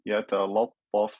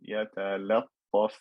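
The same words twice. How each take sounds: First: The l sound is heavy and full. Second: The l sound is light and thin. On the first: The speaker calls it wrong. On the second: The speaker calls it right.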